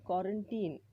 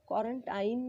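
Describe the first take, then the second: First: The last syllable rhymes with 'seen'. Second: The last syllable rhymes with 'line'. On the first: The speaker calls it right. "इडलिंबूचा ई असा सुद्धा होतो" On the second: The speaker calls it wrong. "क्वारंटाईन नाही"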